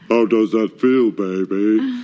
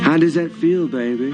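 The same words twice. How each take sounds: First: The voice is pitched even lower. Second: The voice is dropped, but pitched higher.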